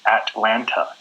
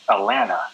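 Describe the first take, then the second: First: The T sounds are clearly pronounced. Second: The T sounds are dropped. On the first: "the correct pronunciation would be Atlanta" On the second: "we don't say the the T's"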